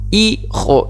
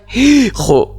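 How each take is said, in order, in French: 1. Le h initial ne se prononce pas du tout. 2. Le h initial est soufflé, on l'entend. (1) "le H, il est muet. Il ne s'aspire pas" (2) "je dis pas dire hijo. Non"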